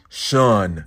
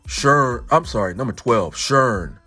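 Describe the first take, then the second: First: The vowel has no R sound in it. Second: The vowel has an R sound in it. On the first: "she was trying to say shun" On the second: "she would put that R sound in there"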